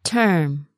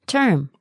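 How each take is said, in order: First: "Term" drawn out; slow word model. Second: Said in the usual way. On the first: Shown as a demonstration. Teacher modelling "Term" for learners, slowly. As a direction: lengthen the vowel of "Term".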